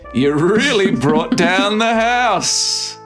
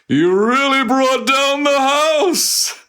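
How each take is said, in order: First: It is said in a natural voice. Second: It is said in a put-on announcer voice.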